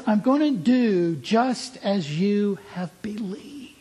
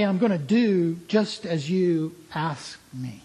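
First: "believed" stressed, slower and higher; emphatic correction. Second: Said in the usual way. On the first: Shown as a demonstration. Preacher giving Jesus' real words, slower with "believed" stressed. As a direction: lean on "as you have believed". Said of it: "He says". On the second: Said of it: "He doesn't say".

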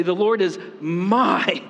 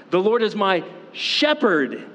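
First: MY drawn out and punched; stress on MY. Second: SHEPHERD set apart and punched high; stress on SHEPHERD. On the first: Preacher showing the congregation different emphases, stress on my. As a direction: lean long and hard on "my". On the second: Preacher showing the congregation different emphases, stress on shepherd. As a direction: hit "shepherd" high after a quick lead-in. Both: Shown as a demonstration. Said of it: "emphasize different words".

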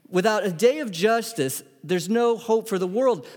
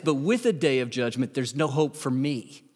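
First: Emphatic, higher-pitched declaration; raised, insistent preaching voice. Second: Subdued, sinking confession; low-key, humbled delivery; subdued admission. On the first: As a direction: proclaim it with lifted pitch. First side of a contrast. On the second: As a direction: let it drop, as a personal admission. Flip side, turned on himself. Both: Real, not acted.

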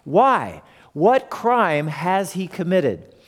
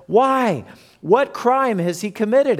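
First: Said in the usual way. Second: A higher, pleading Pilate; Pilate asking. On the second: Acted. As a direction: ask it as the puzzled governor. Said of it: "asked Pilate".

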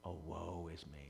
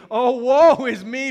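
First: Low, hushed confession of woe; quiet lament. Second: High, very loud, drawn-out cry of woe; loud lament. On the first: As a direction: lament softly, as if humbled before God. Quiet personal lament after confession. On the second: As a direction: cry it out slowly to the congregation. Preached cry of awe before God. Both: Acted.

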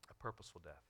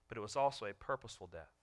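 First: Much softer, lower repeat of purposeful death; hushed echo. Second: Said in the usual way. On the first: Acted. Preacher echoing his own line, hushed. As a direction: let it fall to a near hush. Repeats phrase softly for effect.

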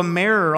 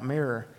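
First: "mirror" slipping into a Southern "merror", open vowel; southern drawl slip. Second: "mirror" said carefully as "mirr-er" with a short clear i, quieter; corrected pronunciation. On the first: Real, not acted. Pastor reading the Sabbath rules, Southern "mirror" slips out. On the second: Shown as a demonstration. Pastor correcting his own drawl to his congregation, careful "mirror". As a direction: fix it: "mirror" with a crisp short i, softly. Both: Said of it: "That's my southern drawl coming out".

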